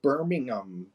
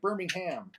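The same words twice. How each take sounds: First: The final syllable is weak and reduced. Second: The final syllable is a full 'ham'. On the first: This is how the other country says it. "you'll say like Birmingham" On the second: This is how the speaker's own country says it. "we say ham on it all"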